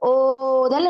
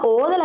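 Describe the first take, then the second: First: The first vowel is stretched out longer. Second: The first vowel has its normal length. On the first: "இத கொஞ்சம் நீட்டி சொல்றோம்" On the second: "இத நாம ஓதல் என்று சொன்னோம்"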